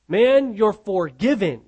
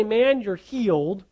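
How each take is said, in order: First: Slow, loud "forgiven" with a final fall; stress on FORGIVEN. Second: "healed" drawn out and left rising; contrast on HEALED. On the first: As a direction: land firmly on "forgiven" as the true wording. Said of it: "He says". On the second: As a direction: set up "healed" as the rejected wording, ending upward. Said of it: "he doesn't say". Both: Retold or imitated.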